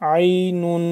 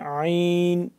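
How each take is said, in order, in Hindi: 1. शब्द एक 'nun' अक्षर से खत्म होता है। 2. शब्द एक सादे 'n' की आवाज़ से खत्म होता है।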